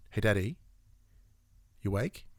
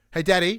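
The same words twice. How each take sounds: First: Put-on soft, low child's wake-up question; lightly voiced kid, quietly asking; imitated child waking dad. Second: Put-on raised, higher child's call; imitated calling from another room. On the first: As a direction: gently check if dad is awake. Child waking a sleeping parent. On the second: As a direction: call out for dad through the house. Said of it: "from the other room".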